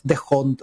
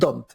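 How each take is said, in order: First: The name is said with an h sound. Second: The name is said with no h sound. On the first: The speaker calls it wrong. "la H es muda, al igual que en español, así que no es de Hond" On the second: The speaker calls it right. "uno le puede decir Don't"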